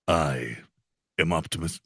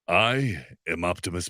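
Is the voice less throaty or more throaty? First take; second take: more throaty; less throaty. First: The put-on voice is more throaty. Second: The put-on voice is less throaty. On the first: "get a little, little throatier" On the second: "my best Optimus Prime"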